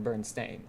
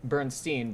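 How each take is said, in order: First: "Bernstein" with a STAIN ending; spelled pronunciation. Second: "Bernstein" with a STEEN ending; common pronunciation. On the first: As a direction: say "Bernstein" as BURN-stain, long A. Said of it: "but it's spelled Bernstein". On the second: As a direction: say "Bernstein" as BURN-steen, long E. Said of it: "it's pronounced Bernstein". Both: Shown as a demonstration.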